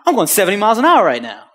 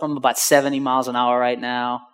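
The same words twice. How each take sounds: First: Loud, high, rapid exclamation; amazed excitement. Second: Said in the usual way. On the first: Retold or imitated. Driver realizing the truck is fixed, amazed and loud. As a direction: burst out with it in acted disbelief. Retells amazement at his speed.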